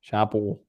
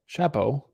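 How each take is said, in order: First: Said in the usual way. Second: Shapo with a rising, long final o; Shapo said right. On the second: Shown as a demonstration. Correcting the stream on Shapo, name said carefully. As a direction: say Shapo the proper way, pitch lifting. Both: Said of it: "That's how you say it".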